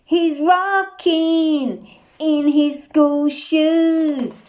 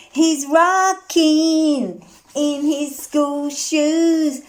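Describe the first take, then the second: No difference in how they are said.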